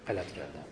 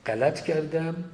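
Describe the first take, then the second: First: Much softer and lower, a contrite mumble; hushed confession. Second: Said in the usual way. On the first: Retold or imitated. Official owning his mistake before the people, hushed and contrite. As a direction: drop the voice as if ashamed to admit it. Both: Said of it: "به مردم بگه غلط کردم".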